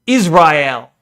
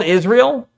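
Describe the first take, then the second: First: Israel said as "iz-rye-EL"; imitated pronunciation. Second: Said in the usual way. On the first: Streamer contrasting her way of saying Israel, imitated pronunciation. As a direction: say Israel with "rye" in place of the usual "ree". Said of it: "what really gives it away is when she says".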